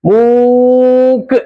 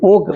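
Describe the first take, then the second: First: The first vowel is stretched out very long. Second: The first vowel is held a medium length. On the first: The speaker calls it wrong. "ഒത്തിരി നീട്ടി നോക്കേ" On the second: The speaker calls it right. "ഒരു medium നീട്ടി"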